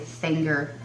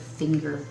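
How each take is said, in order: First: The vowel has a Southern Texas drawl. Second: The vowel is plain standard, without drawl. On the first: "I live in Texas, so I have to say finger" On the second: "instead of finger"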